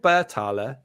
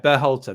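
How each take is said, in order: First: The t sound comes early in the name. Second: The t sound comes late in the name. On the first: The speaker calls it wrong. "if that's how you pronounce his name. I'm not sure" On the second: The speaker calls it right. "That's it. The T"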